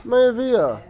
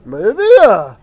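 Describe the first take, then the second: First: Mayavia at ordinary volume, raised and lightly lilted; neutral contrast. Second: Mayavia loud with a big swoop up and down; emphatic exclamation. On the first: Teacher showing one way to say a word, light Mayavia. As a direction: say Mayavia lightly, without a big push. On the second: Teacher showing how tone conveys meaning, dramatic emphatic Mayavia. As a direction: belt out Mayavia with a dramatic swell. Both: Shown as a demonstration. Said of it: "Or you could say".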